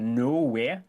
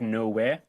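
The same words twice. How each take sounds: First: It is said with a strong Geordie accent. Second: It is said with a mild, fairly neutral accent.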